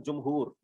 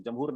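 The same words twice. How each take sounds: First: जमहूर said as jum-hoor with a short u in the first syllable; correct pronunciation. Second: जमहूर said as jam-hoor with a short a in the first syllable; common mispronunciation. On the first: Teacher showing students the right way, careful jum-hoor. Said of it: "जीम की पेश जमहूरी होता है". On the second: Teacher imitating how students misread it, jam-hoor. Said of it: "उसको अक्सर लोग उसको जमहूर पढ़ देते हैं". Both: Shown as a demonstration.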